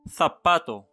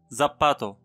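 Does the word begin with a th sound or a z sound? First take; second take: th sound; z sound. First: The word begins with a th sound. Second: The word begins with a z sound. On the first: The speaker calls it right. "دائما ننطقه ثيتا" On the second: The speaker calls it wrong. "ولا يمكن أن ننطقه زباتو"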